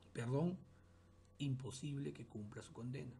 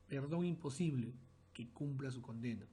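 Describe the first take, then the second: First: "Perdón" on its own with a rise, then a break; pause after Perdón. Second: "Perdón imposible" run together in one breath; no pause after Perdón. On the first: Teacher pausing after "Perdón" to show the comma. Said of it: "Vemos cómo cambia el sentido". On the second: Teacher reading the sentence with no comma after Perdón. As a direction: read "Perdón imposible" without a break. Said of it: "Vean el primer caso". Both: Shown as a demonstration.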